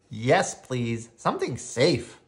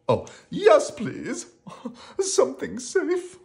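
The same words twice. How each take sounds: First: Said in the usual way. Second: High, pleading frightened character voice; acted pleading, pitched way up; begging. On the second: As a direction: beg for it in a high voice. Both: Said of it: "begged Rocky".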